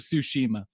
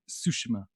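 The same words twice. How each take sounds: First: A full 'ee' vowel is sounded in the word. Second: The 'ee' vowel is left out of the word. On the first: The speaker calls it wrong. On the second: The speaker calls it right.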